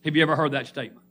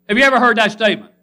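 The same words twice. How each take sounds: First: Said in the usual way. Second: Loud. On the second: Acted. Preacher repeats question, much louder.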